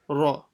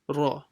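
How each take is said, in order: First: The r sound is full and heavy. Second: The r sound is full and heavy.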